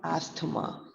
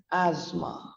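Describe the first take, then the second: First: ASTHMA with the T sounded, "AST-ma"; wrong pronunciation. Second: ASTHMA with silent T H, "AZ-ma"; correct pronunciation. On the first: Teacher warns what not to say, ASTHMA with an audible T. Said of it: "It's not asthma". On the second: Teacher models the right way, ASTHMA as "AZ-ma". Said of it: "it is pronounced as asthma". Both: Shown as a demonstration.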